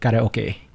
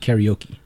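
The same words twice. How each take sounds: First: It is said with a Japanese-style pronunciation. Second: It is said with an English-style pronunciation. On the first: The speaker calls it right. "It's anime and it's karaoke" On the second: The speaker calls it wrong. "not karaoke"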